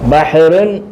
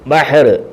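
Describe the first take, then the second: First: The word ends with an added 'un' sound. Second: The word ends on a bare final consonant. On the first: The word is read in running speech. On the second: The reader is stopping at a full stop.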